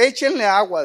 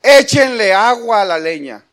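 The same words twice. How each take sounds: First: Said in the usual way. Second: Loud, bold order to the people; bold command. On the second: Retold or imitated. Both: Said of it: "fíjense qué atrevido".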